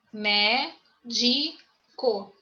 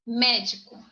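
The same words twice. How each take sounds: First: "Médico" very slowly split into mé, di, co; syllable by syllable. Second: Said in the usual way. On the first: Shown as a demonstration. Teacher counting syllables for the class, "Médico" split syllable by syllable. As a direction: break "Médico" into three separate syllables with pauses. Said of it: "Co, primeira sílaba". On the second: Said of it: "Médico. Co, primeira sílaba".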